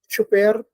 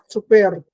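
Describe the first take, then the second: First: It begins with a ch sound. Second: It begins with a ts sound. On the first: "It's being replaced by ch. So we say" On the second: "starts out as a t, but is released as a s"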